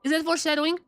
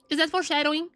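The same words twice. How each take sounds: The two takes are said the same way.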